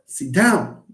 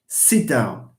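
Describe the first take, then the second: First: The stress is on the word down. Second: The stress is on the word sit. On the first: The speaker calls it wrong. "It's not" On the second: The speaker calls it right. "stress will fall on the, the other part, the verb. We say"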